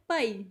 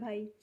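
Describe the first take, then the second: First: It is said forcefully, Punjabi style. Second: It is said softly and politely, Hindi style.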